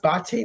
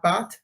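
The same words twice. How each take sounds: First: "Bate" said in two syllables, ba-tay; "Bate" with a sounded ending, like -tay; Italian pronunciation. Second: "Bat" as one short syllable; "Bat" ending on the t, no -tay; one-syllable pronunciation. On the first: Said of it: "your name pronounced Bate". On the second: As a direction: say "Bat" like the animal. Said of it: "not Bat". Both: Shown as a demonstration.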